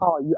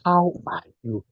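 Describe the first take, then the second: First: It is asked in a casual, offhand way. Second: It is asked in a sincere, earnest way.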